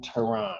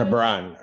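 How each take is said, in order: First: "Teran." said as teh-RAHN with no b; mispronounced name. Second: "Tebran," said as teh-BRAHN with the b; corrected name. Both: Real, not acted. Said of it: "is that Tebran".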